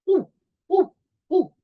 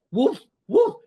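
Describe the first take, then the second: First: Tiny yapping puppy, much higher; teacher barking as a very small puppy. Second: Loud barking woof, higher; teacher barking as a big dog. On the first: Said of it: "This is a very small puppy". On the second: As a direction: bark it out like a dog. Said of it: "So I go". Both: Shown as a demonstration.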